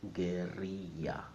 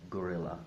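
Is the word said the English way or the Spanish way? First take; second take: Spanish; English. First: It is said with a Spanish pronunciation. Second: It is said with an English pronunciation. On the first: "In Spanish, it's pronounced guerrilla" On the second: "in English, it's perfectly alright to talk about guerrilla"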